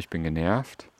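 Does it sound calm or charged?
calm. It is said calmly, without charge.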